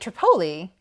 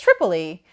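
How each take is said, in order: First: It is said in an Italian-sounding way. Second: It is said in a plain English way. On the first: The speaker calls it wrong. "I kind of gave it this like quasi-Italian pronunciation" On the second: The speaker calls it right. "it's Tripoli"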